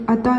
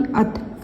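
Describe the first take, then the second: First: अता with a final आ added, the mistake; wrong extra vowel. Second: अत ending sharply on त with no vowel after; correct stop. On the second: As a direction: stop dead on the त of अत. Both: Shown as a demonstration. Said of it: "अता नहीं".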